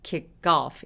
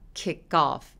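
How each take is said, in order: First: The k links into off with a tensed sound. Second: The k links into off with a plain sound. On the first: The speaker calls it right. "off라고 살짝 느껴지게 발음했죠" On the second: The speaker calls it wrong. "kick off가 아니라"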